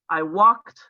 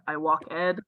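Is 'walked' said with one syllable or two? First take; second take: one; two. First: Walked is said as one syllable. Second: Walked is said as two syllables. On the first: The speaker calls it right. "past tense for verbs like I walked" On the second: The speaker calls it wrong. "not I walk ed"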